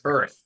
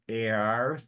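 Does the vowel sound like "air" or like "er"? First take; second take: er; air. First: The vowel sounds like "er". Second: The vowel sounds like "air". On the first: The speaker calls it right. "but it's earth. So it's it's more er" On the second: The speaker calls it wrong. "you kind of go air"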